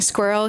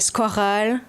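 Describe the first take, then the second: First: It is said in a plain, unaccented way. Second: It is said with a French accent. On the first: "instead of saying squirrel" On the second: "he's French. ... he'll say squirrel"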